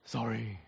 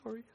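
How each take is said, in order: First: Low, soft, heavy-hearted sorry; a quiet, sorrowful sorry; remorseful sorry. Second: A short, curt sorry; clipped, unwilling apology; grudging sorry. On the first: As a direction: say it with real regret. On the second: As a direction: toss it off defensively. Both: Shown as a demonstration. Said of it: "says sorry like this".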